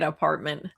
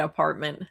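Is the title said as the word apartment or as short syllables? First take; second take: apartment; apartment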